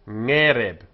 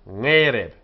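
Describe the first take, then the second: Both takes have the same delivery.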